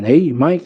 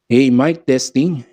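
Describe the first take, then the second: First: Dulled mic check lacking clarity; treble cut. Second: Treble restored. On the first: Sound tech showing treble turned down, unclear voice. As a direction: test the mic with the highs removed. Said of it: "nawalan ng pagka-clarity". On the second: Sound tech showing treble turned up, clearer voice. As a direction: clear mic check with highs back. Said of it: "lagyan natin ng clarity". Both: Shown as a demonstration.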